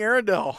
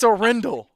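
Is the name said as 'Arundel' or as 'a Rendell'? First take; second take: Arundel; a Rendell. First: The name is said like 'Arundel'. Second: The name is said like 'a Rendell'. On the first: The speaker calls it wrong. "I've been saying Arundel" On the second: The speaker calls it right. "It's a Rendell"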